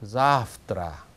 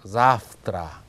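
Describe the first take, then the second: First: Завтра with the first a stressed and drawn out; stress on first syllable. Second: Завтра repeated, first a stressed and held; stress on first syllable. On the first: Teacher shows students where the stress falls, clear and slow. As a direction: hit the first syllable of завтра, let the ending fade. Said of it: "강세가 앞부분에 있거든요". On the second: Teacher repeats the word so students copy it, clear demo. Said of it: "이렇게 읽으면 됩니다". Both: Shown as a demonstration.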